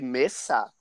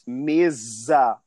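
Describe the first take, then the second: First: The middle consonant is a hissing S sound. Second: The middle consonant is a buzzing Z sound. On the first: This is the Spanish pronunciation. The speaker calls it wrong. "with an S sound" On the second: This is the Portuguese pronunciation. The speaker calls it right. "with a Z or Z sound"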